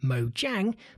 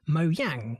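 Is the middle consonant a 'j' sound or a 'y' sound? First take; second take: j; y. First: The middle consonant is a j sound. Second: The middle consonant is a y sound. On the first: This is the default English-speaking pronunciation. "We English and American guys would by default say Mojang" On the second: This is the original Swedish pronunciation. "In Swedish, this word is apparently pronounced Mojang with a Y"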